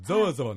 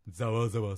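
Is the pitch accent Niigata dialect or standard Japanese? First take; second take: standard; Niigata. First: The word has a standard Japanese pitch accent. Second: The word has a Niigata dialect pitch accent. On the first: This is how other regions say it. "アクセントがね、やっぱざわざわになってると思う" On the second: This is how Niigata people say it. "新潟の人は、"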